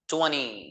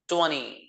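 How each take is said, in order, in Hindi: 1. यह अमेरिकी लहजे में बोला गया है। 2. यह अमेरिकी लहजे में बोला गया है।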